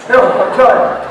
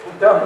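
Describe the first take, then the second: First: Chuckling through "No, I'm done"; laughing. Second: Said in the usual way. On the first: Real, not acted. Preacher joking to the congregation about stopping, laughing.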